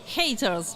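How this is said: It is said with an English-style pronunciation.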